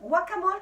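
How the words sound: It is said with a French pronunciation. "comme on prononce en France"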